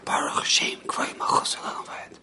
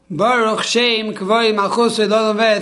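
First: The phrase is spoken in a whisper. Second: The phrase is spoken in a loud voice. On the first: It is recited quietly, as on ordinary days. "we whisper" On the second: It is proclaimed openly, as at the end of Yom Kippur. "we do this very loud"

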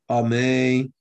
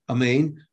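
First: The final n sound is dropped. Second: The first vowel is reduced and barely heard. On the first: "a person doesn't pronounce the last letter clearly ... he didn't say nun" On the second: "pronouncing it instead as a shva. ... there's no ah"

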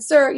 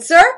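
First: It is said gently and nicely. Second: It is said in a strong, firm voice.

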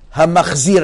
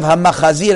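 First: No vowel is heard between 'ch' and 'z'. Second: A vowel is heard between 'ch' and 'z'. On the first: It avoids sounding like an unclean thing. "say Hamachzir" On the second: It sounds like the word for an unclean thing. "instead of Hamachazir, it sounds Chaz V'Shalom like Davar Tameh"

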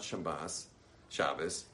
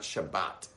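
First: The word ends with an s sound. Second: The word ends with a t sound. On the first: "It is not Shabbos" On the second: "and it's not Shabbat"

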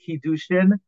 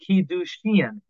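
First: The first vowel is short and reduced. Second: The first vowel is a full ee sound. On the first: The speaker calls it wrong. "And not kiddushin" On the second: The speaker calls it right. "It's a chirik malei"

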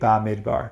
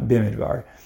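First: The first syllable has an 'a' vowel. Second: The first syllable has an 'i' vowel. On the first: It means in the desert, used as the book's name alone. The speaker calls it right. "so that would be Bamidbar" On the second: It means in a desert, fitting only before Sinai. The speaker calls it wrong. "not Bimidbar"

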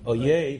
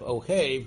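First: The middle consonant sounds like a 'y'. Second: The middle consonant sounds like an 'h'. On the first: It means enemy. The speaker calls it wrong. "becomes oyev amo Yisrael" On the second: It means loves. The speaker calls it right. "instead of ohev"

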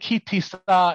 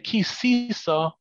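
First: The middle consonant is a plain t sound. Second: The middle consonant is an s sound. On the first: This is a correct traditional pronunciation. The speaker calls it right. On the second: This swaps in the wrong letter and makes no sense. The speaker calls it wrong. "that's just switching a samach for a taf"

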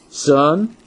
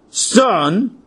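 First: It is said in a calm, neutral way. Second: It is said in a really upset way.

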